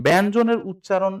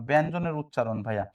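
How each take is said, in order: First: ব্যঞ্জনের উচ্চারণ called out louder and higher; announced heading. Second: Said in the usual way. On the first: Shown as a demonstration. (ব্যঞ্জনের উচ্চারণ জোরে ঘোষণা করে) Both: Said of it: "একটু খেয়াল করেন".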